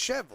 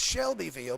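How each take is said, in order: First: The name is said with syllables dropped. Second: The name is said with every syllable. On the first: This is how the locals say it. "you take letters away from Cheville" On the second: This is the official name. "It's Shelbyville"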